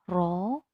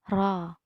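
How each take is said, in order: First: The vowel sounds like a full o. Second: The vowel sounds between o and a. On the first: The speaker calls it wrong. "tidak ro" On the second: The speaker calls it right. "tetapi ro, antara o dan a"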